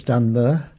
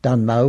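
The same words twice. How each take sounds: First: "Dunmer" with a weak "uh" in place of final O; local Essex pronunciation. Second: Said in the usual way. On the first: Shown as a demonstration. Showing the lost Essex O sound, local pronunciation. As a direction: drop the O, ending "Dunmer" on a schwa. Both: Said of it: "the O sound is, was never used".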